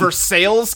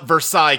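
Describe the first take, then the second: First: Versailles is said with an anglicized local pronunciation. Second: Versailles is said with a French pronunciation. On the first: This names the town in Kentucky. The speaker calls it right. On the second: This names the place in France. The speaker calls it wrong.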